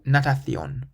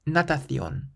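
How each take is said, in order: Both takes have the same delivery.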